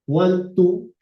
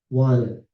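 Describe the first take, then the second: First: It is said as two full words. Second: It is said as one reduced word.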